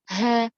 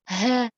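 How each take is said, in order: The two takes are said the same way.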